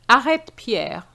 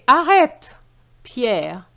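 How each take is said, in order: First: The two words run together without a pause. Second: There is a short pause after Arrête.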